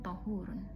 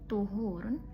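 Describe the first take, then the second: First: The first vowel is an 'a' sound. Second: The first vowel is a 'u' sound. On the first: "dan yang kedua dengan menfathah ta'nya" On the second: "Yang pertama dengan mendomah ta'nya"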